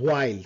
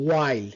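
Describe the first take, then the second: First: WHILE with an audible h before the w; common mistaken pronunciation. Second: WHILE starting on a clean w; silent h. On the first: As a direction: say while as "hwile". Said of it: "অনেকে আমরা while use করি". (while-এর শুরুতে হ-ধ্বনি দিয়ে ভুল উচ্চারণ) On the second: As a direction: say while as "wile", no h. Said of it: "not while". (while-এর হ বাদ দিয়ে "ওয়াইল" উচ্চারণ) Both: Shown as a demonstration.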